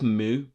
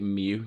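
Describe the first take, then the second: First: The vowel is a plain "oo" sound. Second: The vowel is a "yoo" sound. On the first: "I want to say that's Moo" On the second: "they pronounced it Mew"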